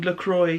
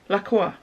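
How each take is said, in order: First: The name is said without a French pronunciation. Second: The name is said with a French pronunciation. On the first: This is how others commonly say the name. "what everyone was calling LaCroix" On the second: This is the speaker's own way, influenced by nearby France. "I would pronounce that LaCroix"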